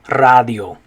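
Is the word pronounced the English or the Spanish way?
Spanish. It is said with a Spanish pronunciation. The speaker calls it right. "you're going to say radio"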